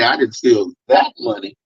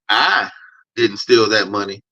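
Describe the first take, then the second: First: The word "that" carries the stress. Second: The word "I" carries the stress. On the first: Different money was stolen. "another emphasis on the word that" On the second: Someone else stole the money. "that kind of implies I know who did steal that money"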